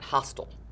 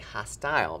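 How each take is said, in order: First: The last syllable has a weak, reduced vowel. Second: The last syllable has a long I sound. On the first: "Some people pronounce that hostile" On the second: "we want to say hostile because it has that long I sound at the end"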